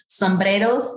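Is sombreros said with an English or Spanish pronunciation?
Spanish. The word is said with a Spanish pronunciation. The speaker calls it right.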